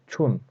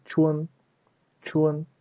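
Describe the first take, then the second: First: "chun" with one plain u vowel, "choon"; wrong reading of chun. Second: "chun" with a glide, "chu-en", high and level; correct chun. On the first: Teacher shows learners what to avoid, wrong reading of chun. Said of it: "we don't read like". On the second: Teacher shows learners the proper reading, correct chun. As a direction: slip a short e into "chun", like "chwen". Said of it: "We should read". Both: Shown as a demonstration.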